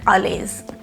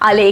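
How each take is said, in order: First: The name ends with an added z sound. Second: The name ends without any z sound. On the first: The speaker calls it wrong. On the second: The speaker calls it right.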